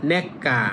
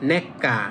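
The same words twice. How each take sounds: Both takes have the same delivery.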